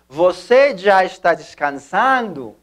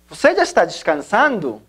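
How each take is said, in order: First: It is spoken slowly with spaces between words. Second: It is spoken smoothly at normal conversational speed. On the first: "para efectos de aprendizaje hablamos de espacio" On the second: "de la siguiente manera, naturalmente"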